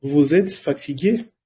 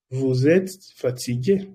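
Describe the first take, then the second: First: Said in the usual way. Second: Vous êtes fatigué slowly, each word clear; slow clear repeat. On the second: Shown as a demonstration. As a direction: spell it out slowly for learners. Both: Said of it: "si alguien te pregunta".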